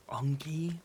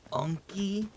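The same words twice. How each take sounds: First: Whispered mockery. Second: "Unky?" asked much higher, rising in disbelief; mock high question. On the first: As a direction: whisper "Unky?" with disdain. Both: Mocking the nickname.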